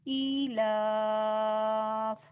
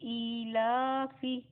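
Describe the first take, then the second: First: The word stops on the consonant 'f'. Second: The word ends with a final 'i' vowel. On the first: The reader stops on this word. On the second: The reader continues without stopping.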